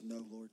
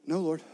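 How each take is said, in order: First: A soft, tearful no, spoken lower and quieter; quiet, weepy answer to Jesus; through tears. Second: Scared reply. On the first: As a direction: let the tears choke the words. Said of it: "through tears". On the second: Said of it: "she was scared and she says". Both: Retold or imitated.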